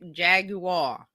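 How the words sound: It is pronounced with a British accent. "British says Jag Jaguar"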